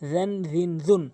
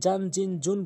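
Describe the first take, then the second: First: The first consonant is made with tongue at teeth. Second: The first consonant is not made at the teeth. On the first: The speaker calls it right. "জিব্বার আগা দাঁতের আঙ্গার সঙ্গে মিলিয়ে নর্মালি উচ্চারণ করবেন" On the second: The speaker calls it wrong. "এটি কখনোই জান জিন জুন বলবেন না"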